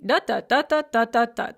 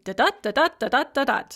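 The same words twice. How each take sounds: First: "da-da" chanted STRONG-weak, the first da punched; trochaic rhythm. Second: "da-da" chanted weak-STRONG, the second da higher and punched; iambic rhythm. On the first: Teacher contrasts a trochee with an iamb, "DA-da" rhythm. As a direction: chant "da-da" with a heavy first beat and light second. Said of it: "a trochee is going to be". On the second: Teacher hums an iamb to help students remember, "da-DA" rhythm. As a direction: chant "da-da" four times, light first da, heavy second da. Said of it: "an iamb is going to be". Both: Shown as a demonstration.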